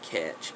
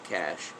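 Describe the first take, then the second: First: The word is not said like 'cash'. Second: The word is said exactly like 'cash'. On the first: The speaker calls it wrong. "Some people call it catch" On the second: The speaker calls it right. "the correct pronunciation ... is cache, just like cash money"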